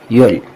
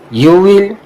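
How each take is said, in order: First: It is said as one contracted word. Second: It is said as two full words. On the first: "contraction का मतलब ही मुखफ़फ़ होता है" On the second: "contraction का मतलब यह है कि आई विल का मुखफ़फ़ क्या होगा?"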